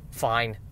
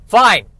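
First: Soft, low, resigned "Fine."; quiet grudging fine. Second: "Fine." shouted high and loud. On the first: Host giving in to the tree trimmers, quiet resigned mutter. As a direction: mumble "Fine." in defeat. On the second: Host giving in to the tree trimmers, exasperated loud shout. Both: Real, not acted.

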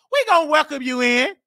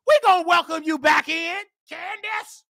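First: Said in the usual way. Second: "We gonna welcome you back in" pushed out, rising on we; louder preachy call. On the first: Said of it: "repeated line, second louder". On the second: Real, not acted. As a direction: call it out like a sermon refrain. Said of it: "repeated line, now shouted".

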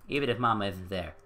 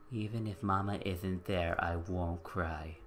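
First: Said in the usual way. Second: Lower, softer, slow and hurt; quiet brave little voice, drawn out slowly; small sad child. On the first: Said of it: "repeats the line differently". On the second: Shown as a demonstration. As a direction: say "Even if Mama isn't there" like a kid holding back tears. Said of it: "repeats the line, small and slow".

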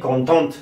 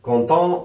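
First: "contente" with a clearly sounded final t; final consonant pronounced. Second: "content" in French with a silent final t; final consonant silent. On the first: Teacher showing the feminine form, "contente" ending in a clear t. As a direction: finish "contente" on an audible t. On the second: Teacher showing the masculine form, "content" with the last t dropped. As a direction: end "content" on the nasal vowel, no t. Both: Shown as a demonstration.

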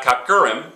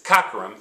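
First: "cockerum" with the stress moved to the middle "er"; wrong stress. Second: "cockerum" stressed on "cock", the rest reduced; stress on first syllable. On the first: Teacher showing students the wrong way, "cockerum" stressed mid-word. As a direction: lean on the second syllable of "cockerum". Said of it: "notice it's not cur". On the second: Teacher giving the correct name, "cockerum" stressed up front. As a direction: hit "cock", let "erum" fall away. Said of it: "it's cockerum". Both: Shown as a demonstration.

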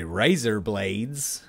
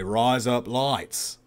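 First: Said in the usual way. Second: Razor blades with slow, wide Aussie vowels; Australian accent. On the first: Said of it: "if you want to say razor blades". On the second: Shown as a demonstration. Demonstrating how Australians say razor blades, drawn-out Aussie accent. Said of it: "in an Australian accent, you say".

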